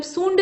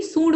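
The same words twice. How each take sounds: First: सूंड with a full n before the ḍ; wrong form. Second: सूंड with only a nasal vowel; correct form. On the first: Teacher showing the mistake, सूंड with a full n. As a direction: say सूंड as "soonḍ". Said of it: "नहीं होता है बल्कि". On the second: Teacher correcting it, सूंड with nasalised oo only. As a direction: say सूंड without a full n. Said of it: "बल्कि सूंड होता है". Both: Shown as a demonstration.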